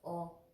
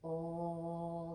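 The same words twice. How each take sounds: First: The vowel is held short. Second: The vowel is held long. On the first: "it's held very shortly" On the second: "The first one was"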